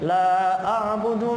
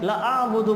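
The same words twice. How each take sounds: First: The vowel after the l is long. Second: The vowel after the l is short. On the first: I do not worship what you worship. The speaker calls it right. "लाम के बाद अलिफ है, मतलब अलिफ मिलाया तो सही है" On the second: I worship what you worship. The speaker calls it wrong. "लाम के बाद अलिफ नहीं पढ़ा, लंबा नहीं किया"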